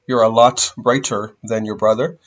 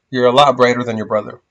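First: Each word is said separately and carefully. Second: The words are run together with reduced sounds. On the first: The speaker calls it wrong. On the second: The speaker calls it right.

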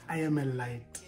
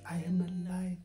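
First: It is said in his normal speaking voice. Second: It is said in a put-on therapist voice.

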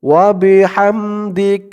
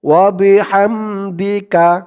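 First: The last word ends on a bare k sound. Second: The last word ends with a short a vowel. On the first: The reciter stops after this word. "থামলে উচ্চারণটা হয় ওয়া বিহামদিক" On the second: The reciter continues without stopping. "না থামলে ওয়া বিহামদিকা"

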